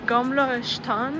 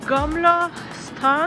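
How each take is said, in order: First: The second word starts with an sh sound. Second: The second word starts with a plain s sound. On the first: The speaker calls it right. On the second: The speaker calls it wrong.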